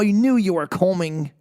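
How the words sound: It is spoken in a British accent. "Let's do the British accent"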